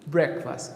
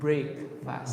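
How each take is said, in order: First: The first syllable sounds like 'breck', run together. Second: The first syllable sounds like 'brake', two separate words. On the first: The speaker calls it wrong. "We're pronouncing it wrong" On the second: The speaker calls it right. "It should be break fast"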